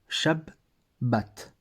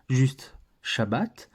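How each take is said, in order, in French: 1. Le son b au milieu est allongé. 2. Le son b au milieu est court. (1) "on disait Shab, Shabbat, comme ça" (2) "on ne disait pas juste"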